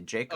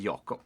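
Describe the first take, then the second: First: The name is said with English pronunciation. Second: The name is said with Swedish pronunciation. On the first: "I'm speaking Eng- English, so I say Jacob" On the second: "in Sweden, we say we say Jakob"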